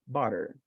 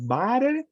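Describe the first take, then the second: First: The first vowel is an in-between sound. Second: The first vowel is a clear, full vowel. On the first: The speaker calls it right. "It's like uh, in between" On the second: The speaker calls it wrong. "it is not butter"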